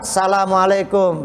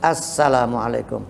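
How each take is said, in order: First: The greeting begins with a plain 'sa' sound. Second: The greeting begins with a linked 'as-sa' sound. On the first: The greeting uses the indefinite form. The speaker calls it wrong. "Kalau nggak pakai alif lam" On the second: The greeting uses the definite form. The speaker calls it right. "Alif lam syamsiyah masuk ke huruf sin, jadi nyambung"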